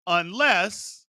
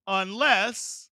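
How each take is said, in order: Both takes have the same delivery.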